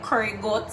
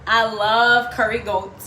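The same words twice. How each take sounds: First: "curry goat" said the way she insists it must be, in a light island accent; curry goat with a little accent. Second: Said in the usual way. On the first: Shown as a demonstration. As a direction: give "curry goat" a touch of Jamaican accent. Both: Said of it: "And you gotta say it like that".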